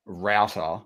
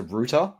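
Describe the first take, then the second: First: Router rhymes with "outer", the Aussie and American way. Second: Router said like "rooter", the way the Brits say it; British router. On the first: Explaining to cohosts, router said to rhyme with outer. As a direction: say router like "rowter". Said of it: "you think of, like, a, a Wi-Fi". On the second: Explaining to cohosts, router said the British way, like rooter. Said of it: "the way the Brits say it". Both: Shown as a demonstration.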